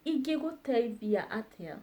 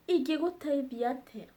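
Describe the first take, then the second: First: Said in the usual way. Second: "Ingĩgũteithia atĩa?" rattled off fast; quick fluent "Ingĩgũteithia atĩa?"; fast and higher. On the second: Shown as a demonstration. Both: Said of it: "repeated model phrase".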